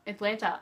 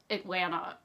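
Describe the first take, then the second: First: "Atlanta," retried louder with a clear t; careful retry. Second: "Atlanta?" said without the t, like "Atlanna"; fumbled pronunciation. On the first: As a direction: say "Atlanta," again, sounding the t firmly. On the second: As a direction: trip over "Atlanta?", dropping the middle t. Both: Shown as a demonstration. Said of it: "I can't say it".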